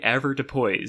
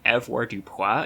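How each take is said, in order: First: The word is pronounced with English sounds. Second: The word is pronounced with French sounds. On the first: The speaker calls it right. "it's apparently usually avoirdupois" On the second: The speaker calls it wrong. "I've been saying it like avoirdupois in my head this whole time because this is like the most French looking word"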